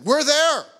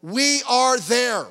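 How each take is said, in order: First: Much higher, louder We're there; preaching shout. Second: Slow, loud, every word weighted; slow emphatic repeat. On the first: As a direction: hammer it home to the congregation. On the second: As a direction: drive it home word by word. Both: Real, not acted. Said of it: "let me just tell you something".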